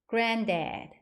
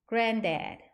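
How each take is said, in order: Both takes have the same delivery.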